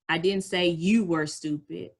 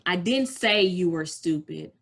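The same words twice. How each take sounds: First: The stress is on the word you. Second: The stress is on the word say.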